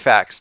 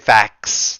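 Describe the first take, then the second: First: The final X sound is light and natural. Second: The final X sound is heavily overemphasized. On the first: The speaker calls it right. "just just say facts" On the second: The speaker calls it wrong. "Don't overemphasize the X. Don't oversay it"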